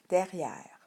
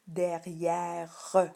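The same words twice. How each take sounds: First: The final e is silent. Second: The final e is sounded as an extra syllable. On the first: This is how the word is normally spoken. "mais on prononce derrière" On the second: This shows how the word is spelled. "on devrait écrire derrière"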